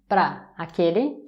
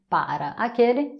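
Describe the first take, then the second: First: Para shrinks to one syllable, pra. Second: Both syllables of para are fully pronounced.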